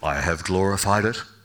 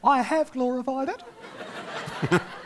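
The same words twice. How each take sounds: First: The voice is deep and booming. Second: The voice is high and squeaky. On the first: It sounds like a mighty divine voice. The speaker calls it right. "Just sounds more godlike, doesn't it, when you talk in those tones?" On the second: It sounds small and unimpressive. The speaker calls it wrong. "I can't imagine a little squeaky voice coming from heaven"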